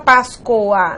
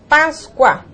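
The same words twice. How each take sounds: First: The o is a full o vowel. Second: The o is a weak u sound. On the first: The speaker calls it wrong. "Você não fala Páscoa" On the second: The speaker calls it right. "você tem som de U"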